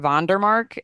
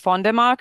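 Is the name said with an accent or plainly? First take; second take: plain; accented. First: The name is said plainly, without the accent. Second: The name is said with a foreign accent.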